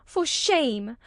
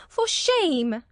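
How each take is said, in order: First: Angry. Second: Angry repeat. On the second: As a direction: repeat it with more anger. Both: A narrator's reading. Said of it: "she repeated angrily".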